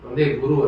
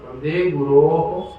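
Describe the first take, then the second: First: The last word ends in a plain u sound. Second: The last word ends in o with echoed ho. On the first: The speaker calls it wrong. "ಅಲ್ಲ" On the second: The speaker calls it right. "ಗುರೋಹೋ ಅಂತ ಹೇಳ್ಬೇಕು"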